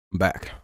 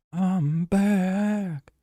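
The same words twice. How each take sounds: First: Said in the usual way. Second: "back" sung out high and drawn long; high theatrical comeback call; high announcer-style I'm back. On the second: Shown as a demonstration.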